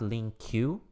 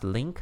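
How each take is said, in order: First: It is said as two syllables, "link-kyoo". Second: It is said as one syllable, "link". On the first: The speaker calls it wrong. "not link queue. Don't pronounce it link queue, that's not correct" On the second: The speaker calls it right. "it is pronounced link"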